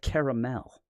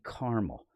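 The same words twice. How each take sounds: First: Caramel is said in a European way. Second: Caramel is said in an American way.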